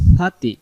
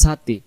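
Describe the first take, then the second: First: The first sound is a soft lisped 'th'. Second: The first sound is a hard hissing 's'. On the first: The speaker calls it right. "সবসময় জিহ্বার আগা থেকে আমরা পড়বো" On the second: The speaker calls it wrong. "শক্ত করে আওয়াজটা বলতে যাব তখন এই সিনে চলে আসবে"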